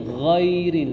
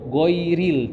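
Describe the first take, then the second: First: It begins with a rasping, flowing throat sound. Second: It begins with a hard g stop. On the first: The speaker calls it right. "ghairil yang benar" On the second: The speaker calls it wrong. "kita sebagian masih ada yang membaca go"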